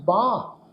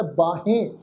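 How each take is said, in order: First: ਬਾਂਹ as one long nasal syllable, baan; silent ਸਿਹਾਰੀ. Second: ਬਾਹੇ as two syllables, baa-he; common wrong reading. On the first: Shown as a demonstration. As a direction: say ਬਾਂਹ with no 'he' ending. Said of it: "ਉਹ ਕੀਤੀ ਜਾਏਗੀ". ('ਬਾਂਹ', ਬਿੰਦੀ ਨਾਲ, 'ਹੇ' ਤੋਂ ਬਿਨਾਂ) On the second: Retold or imitated. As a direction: say ਬਾਹੇ with the 'he' sounded. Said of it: "ਇਸ ਢੰਗ ਨਾਲ ਉਚਾਰਨ ਕੀਤਾ ਜਾਂਦਾ". ('ਬਾਹੇ', 'ਹੇ' ਸਾਫ਼ ਬੋਲ ਕੇ)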